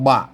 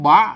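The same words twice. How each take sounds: First: The syllable has a low tone. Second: The syllable has a rising tone. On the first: "เสียงเอกนะครับ" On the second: "เสียงจัตวานะครับ"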